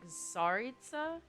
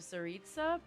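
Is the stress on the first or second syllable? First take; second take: first; second. First: The stress is on the first syllable. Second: The stress is on the second syllable.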